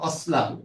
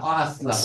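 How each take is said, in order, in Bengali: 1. শব্দ দুটো একসঙ্গে মিশে যায়, কোনো গ্লোটাল স্টপ নেই। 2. একটি গ্লোটাল স্টপ wa আর aslahu-কে আলাদা করে। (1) "এটা কি হবে উচ্চারণ হবে অসলাহু" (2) "না অ আসলাহু"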